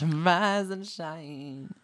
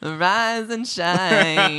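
First: Slow, drawn-out British singsong, higher pitched; hammed-up British, very long vowels; mock British accent. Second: Very slow, drawn-out, high British wake-up call; singsong fake British, long vowels; mock British accent. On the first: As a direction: parody a famous Brit, stretching every word. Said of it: "famously British". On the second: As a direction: stretch each word in a hammed-up British accent. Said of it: "Do British". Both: Shown as a demonstration.

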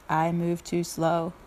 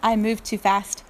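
First: Low, slow turtle voice. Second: Said in the usual way. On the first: Acted. Turtle declines to deliver invitations, slow and low. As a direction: drag it out low, like a plodding turtle. Turtle's take beside rabbit's.

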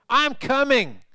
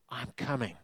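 First: Higher and louder I'm coming, calling out; joyful shout. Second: Much softer, I'm coming breathed out; tender quiet call. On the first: Father running to his son, calling out loud. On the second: Father spotting his son far off, soft and quiet. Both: Acted.

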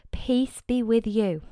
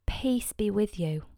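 First: Said in the usual way. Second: Soft whisper, slow; whispered greeting. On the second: Acted. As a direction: breathe the words gently. Risen Jesus greets the disciples.

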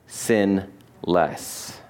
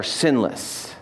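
First: "sin less" as two separate words, pause between; split into two words. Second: Said in the usual way. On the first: Real, not acted. Preacher landing wordplay on sinless, "sin less" split in two. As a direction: say "sin", pause, then a low, soft "less".

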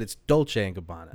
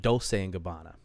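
First: Dolce said as "DOLE-chay", with a ch; crisp ch in the middle of Dolce; corrected pronunciation. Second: Dolce said as "dole-say", with an s; soft s in place of the ch in Dolce; mother's mispronunciation. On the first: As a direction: say Dolce the Italian way, "dol-chay". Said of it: "But I correct her. I said". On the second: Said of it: "And she pronounced it". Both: Retold or imitated.

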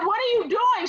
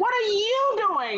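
First: High-pitched mock demand; indignant question. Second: High, slow retort leaning on "you"; stress on YOU. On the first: Daughter confronting mom, indignant. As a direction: ask it high in disbelief. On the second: Retold or imitated. Mom retorting to daughter, long stressed "you". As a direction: stretch "you" to throw the question back. Mom throws question back, retold.

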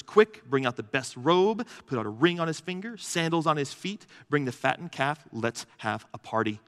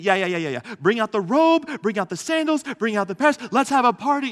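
First: Said in the usual way. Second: Much higher and louder, brushing the son off to throw a party; gushing dad talking over his son, full of excitement; hammed-up eager father. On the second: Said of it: "doesn't even let the son finish".

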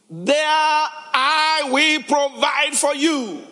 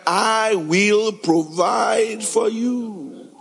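First: "There I will provide for you" said very slowly and higher; stately slow promise. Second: Very slow, "I will provide for you" drawn out word by word; slow, emphatic "provide for you"; stress on provide. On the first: Acted. Joseph's promise read. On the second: Shown as a demonstration. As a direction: lean on "provide" and let it land. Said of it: "Is there any work in his suggestion here?".

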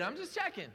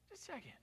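First: Said in the usual way. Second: Much softer, tossed off under the breath; softer aside. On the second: Shown as a demonstration. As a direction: repeat "Just checking." as a quiet aside.

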